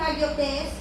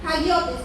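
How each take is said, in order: First: Hagiotes with the stress misplaced, not on the O; wrong stress. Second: Hagiotes with the stress firmly on the O. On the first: Correcting a Greek word in a Bible talk, first stressed wrong. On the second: Teacher correcting her own Greek word, stressed on the O. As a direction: say hagiotes, leaning on the O. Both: Shown as a demonstration. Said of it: "perdón, porque el acento lo tiene en la O".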